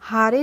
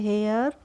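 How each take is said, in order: First: It is said as two syllables, haa-ray. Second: It is said as one syllable, hair. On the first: The speaker calls it wrong. "हारे नहीं पढ़ते हैं इसको" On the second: The speaker calls it right. "हम पढ़ते हैं हेयर"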